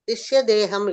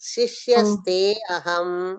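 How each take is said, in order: First: The middle is pronounced with a 'd' sound: deham. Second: The middle is pronounced with 'st': aste aham. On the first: It means the disciple's body. The speaker calls it wrong. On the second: It means I am your disciple. The speaker calls it right.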